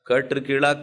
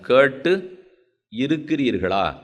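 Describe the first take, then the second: First: The two words run together without any pause. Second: There is a short pause between the two words. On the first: Asks whether the listeners have heard it. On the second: Asks whether the listeners live by what they heard.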